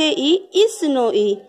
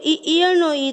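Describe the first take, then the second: First: ઈ as the big, long vowel, slowly. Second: ઈ as the small, short vowel of ઈયળ. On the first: Teacher shows students the big ઈ of ઈસ, long I. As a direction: draw out ઈ slowly, as in ઈસનો ઈ. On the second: Teacher shows students the small ઈ of ઈયળ, short I. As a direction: say ઈ short, as in ઈયળનો ઈ. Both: Shown as a demonstration. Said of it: "બોલવામાં પણ એ જ રીતે બોલાય".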